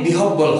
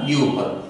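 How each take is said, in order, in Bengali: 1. মাঝের অংশটি বলা হয় h আর b আলাদা করে। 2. মাঝের অংশটি বলা হয় aspirated bh ধ্বনিতে। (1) "এটা কখনোই বিহব্বল হবে না"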